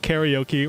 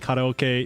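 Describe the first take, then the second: First: It is pronounced the English way. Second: It is pronounced the Japanese way. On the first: The speaker calls it right. "the English pronunciation is karaoke" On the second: The speaker calls it wrong. "you're being an obnoxious weeb"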